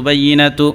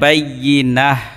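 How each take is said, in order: First: The word ends with a full 'tu' syllable. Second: The word ends with a soft 'h' sound. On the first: The reading continues without stopping. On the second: The reader stops at this word.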